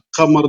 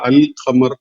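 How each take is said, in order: First: The l is dropped before q. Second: The l is clearly pronounced before q. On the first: The speaker calls it wrong. "അഖമർ എന്ന് പറയില്ല" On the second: The speaker calls it right. "അൽ ഖമർ എന്നാ പറയാ"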